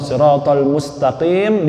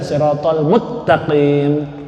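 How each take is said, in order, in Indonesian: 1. Bunyi s tetap dipertahankan sebelum t. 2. Bunyi s digabung menjadi t ganda.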